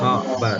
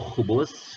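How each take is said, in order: First: Both vowels are 'a' sounds. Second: Both vowels are 'u' sounds. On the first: The speaker calls it right. "fathah dua-duanya" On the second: The speaker calls it wrong. "ada orang baca itu khubus"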